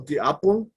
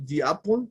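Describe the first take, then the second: First: "the apple" with "the" said "de". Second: "the apple" with "the" said "di". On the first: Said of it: "o the apple". ("the apple" con "the" como "de") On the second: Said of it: "pueden decir the apple". ("the apple" con "the" como "di") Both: Shown as a demonstration.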